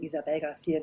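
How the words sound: The name is pronounced the German way. "Deswegen habe ich es immer deutsch ausgesprochen"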